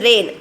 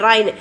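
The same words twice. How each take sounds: First: "rain" with a long "ay" vowel; correct long A. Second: "rain" said as "rhine", with an eye vowel; wrong vowel. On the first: Teacher correcting for children, "rain" with a long A sound. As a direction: say "rain" to rhyme with "lane". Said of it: "It is rain". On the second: Teacher warning children off a mistake, "rain" mispronounced as rhine. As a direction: say "rain" to rhyme with "line". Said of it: "Don't sell, uh, tell". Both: Shown as a demonstration.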